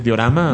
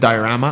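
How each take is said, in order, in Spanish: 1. La palabra se pronuncia con pronunciación española. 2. La palabra se pronuncia con pronunciación inglesa. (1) "aquí se dice diorama" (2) "en inglés se dice diorama"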